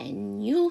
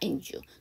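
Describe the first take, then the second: First: The d sound is dropped entirely. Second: The d sound is carried into you. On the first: "d 발음을 안 해서" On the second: "넘겨서"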